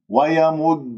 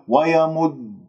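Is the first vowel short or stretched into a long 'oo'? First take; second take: short; short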